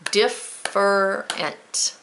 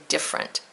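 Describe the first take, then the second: First: Different said slowly and split as dif-fer-ent; careful three syllables. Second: Different squeezed into two syllables as diff-rent; lazy different. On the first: Teacher modelling for students: Different said slowly in three syllables. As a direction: sound out Different slowly, one syllable at a time. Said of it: "that gives us three". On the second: Teacher showing how people lazily say different as diff-rent. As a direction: swallow the middle syllable of different. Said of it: "We're just kinda lazy when we say it". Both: Shown as a demonstration.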